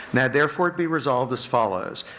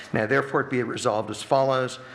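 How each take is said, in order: The two takes are said the same way.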